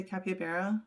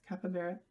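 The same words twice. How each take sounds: First: "capybara" with a glide in the middle, cap-ee-uh-bara. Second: "Capybara" with a short "uh" in the middle, cap-uh-bara. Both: Shown as a demonstration. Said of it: "How do you say it?".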